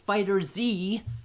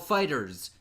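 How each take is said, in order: First: It ends with the letter Z spoken. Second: It ends in a plain S sound. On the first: The speaker calls it right. "No, it's Fighter Z" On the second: The speaker calls it wrong. "he mispronounced it when he announced it. He said Dragon Ball Fighters"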